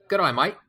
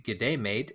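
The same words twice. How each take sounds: First: Higher-pitched Australian greeting; playful Australian impression; Australian accent. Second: Said in the usual way. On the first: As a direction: put on an Aussie accent. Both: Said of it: "in an Australian accent".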